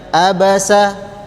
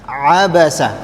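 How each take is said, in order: First: It opens with a light glottal stop. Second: It opens with a deeper, squeezed throat sound. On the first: The speaker calls it wrong. "tidak boleh ada yang baca abasa" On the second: The speaker calls it right. "Yang benar abasa"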